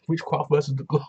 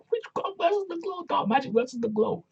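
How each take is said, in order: First: Said in the usual way. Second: Playful falsetto matchup announcement; silly high voice. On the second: Acted. Host jokes about the match's witchy theme, silly high voice.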